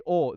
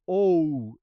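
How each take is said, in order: First: "o" as a pure, unbent Spanish vowel. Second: "o" drawn out slowly, bent into an English glide; English-style o. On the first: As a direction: say "o" short and clean with no glide. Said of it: "they don't say o". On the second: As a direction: stretch "o" and let it slide like English "oh". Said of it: "they say o. They bend". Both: Shown as a demonstration.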